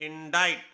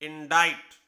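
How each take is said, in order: Both takes have the same delivery.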